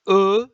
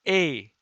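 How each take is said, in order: First: The letter is said the French way. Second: The letter is said the Italian way. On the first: "in French is E" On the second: "In Italian is A"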